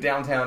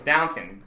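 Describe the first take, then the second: First: The second syllable sounds like 'town'. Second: The second syllable sounds like 'ton'. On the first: The speaker calls it wrong. "I like to say it that way" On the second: The speaker calls it right. "It's Downton"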